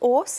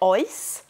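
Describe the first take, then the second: First: It is said with a South Welsh accent. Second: It is said with a North Welsh accent. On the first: "with a good South Walian accent" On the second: "neu yn y gogledd"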